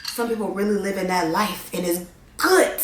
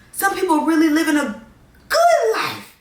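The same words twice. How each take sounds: First: Said in the usual way. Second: Much higher, airy, swooning over the good life; dreamy high sing-song. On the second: Shown as a demonstration. Dreaming aloud to viewers about a good life, high sing-song. Dreamy take on the same line.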